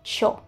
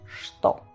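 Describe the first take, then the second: First: It is a shortened casual pronunciation. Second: It is the full standard pronunciation. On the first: The speaker is talking very casually. "de forma muy coloquial o en los pueblos, se dicen cho" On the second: The speaker is talking formally. "esto aún así se pronuncia en ruso что"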